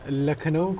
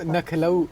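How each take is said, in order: First: The word begins with an L sound. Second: The word begins with an N sound.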